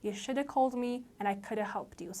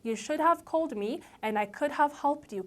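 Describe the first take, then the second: First: The 'have' words shrink into a short weak sound. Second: Each word is pronounced fully and separately. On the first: "have ከshould ጋር ስትሆን should ይሆናል" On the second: "instead of saying"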